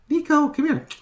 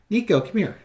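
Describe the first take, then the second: First: Much higher sing-song call of Nico; squeaky sing-song call to a cat. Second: Raised calling voice, Nico pitched up; calling the cat. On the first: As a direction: coax the cat in a high pet voice. Calling the cat again, higher. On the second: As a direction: call the cat across the room. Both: Real, not acted.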